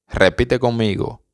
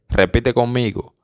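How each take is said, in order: The two takes are said the same way.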